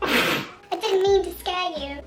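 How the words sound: It is said in a put-on British accent.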